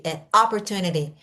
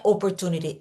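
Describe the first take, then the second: First: "opportunity" starting with an open a. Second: "opportunity" with a closed o; Brazilian opportunity. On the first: Teacher modelling American "opportunity", open first vowel. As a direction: open the mouth: "opportunity" as aportunidi. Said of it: "Eles abrem a boca". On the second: Teacher showing the wrong "opportunity", closed o. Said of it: "não é opportunity". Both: Shown as a demonstration.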